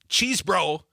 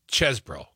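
First: The first syllable has a long ee vowel. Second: The first syllable has a short e vowel. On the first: The speaker calls it wrong. "It's not cheese bro" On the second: The speaker calls it right. "it's ches bro. Put another way, the E, ease, is like dessert"

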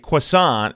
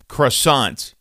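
First: The word is pronounced the French way. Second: The word is pronounced the English way. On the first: This is how it is said in France. "In France, they would say croissant" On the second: This is how it is said locally. "We say croissant here"

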